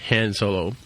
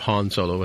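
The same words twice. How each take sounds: First: The name has its everyday pronunciation. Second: The name has its intended pronunciation. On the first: "speaking of Han Solo" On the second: "as it's supposed to be pronounced"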